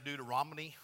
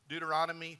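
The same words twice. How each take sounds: First: The word is pronounced in a garbled, nonstandard way. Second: The word is pronounced in the standard way. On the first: The speaker calls it wrong. "for years I mispronounced it, just got tongue-tied" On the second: The speaker calls it right. "I said it right this morning"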